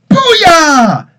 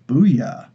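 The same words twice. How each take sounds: First: It is said with lively, excited energy. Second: It is said in a flat, robotic monotone. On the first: The speaker calls it right. "that was great. Guys, we we just defeated this bad guy" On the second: The speaker calls it wrong. "this literally like this monotone robotic type voice"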